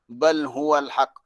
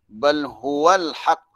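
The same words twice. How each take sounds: The two takes are said the same way.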